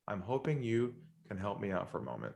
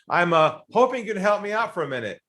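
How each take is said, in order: First: It sounds relaxed and calm, in a lower voice. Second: It sounds pushy and salesy, like a pitch. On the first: The speaker calls it right. "be relaxed and calm and lower your voice" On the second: The speaker calls it wrong. "you can't be salesy"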